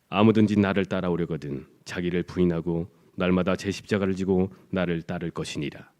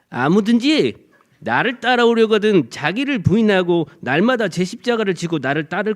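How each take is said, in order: First: The voice is deep and soft. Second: The voice is high and harsh. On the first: The speaker sounds trustworthy. "중저음의 부드러운 목소리입니다" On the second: The speaker is hard to believe. "만일에 예수님 목숨이 이렇다면"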